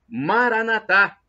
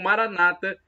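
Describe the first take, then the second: First: The stress falls on the final syllable. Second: The stress falls on the second-to-last syllable. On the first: This is how Catholics say it. "como dizemos nós católicos" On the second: This is how evangelicals or Protestants say it. "pronúncia dos evangélicos ou protestantes"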